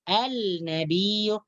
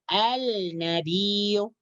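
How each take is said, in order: Both takes have the same delivery.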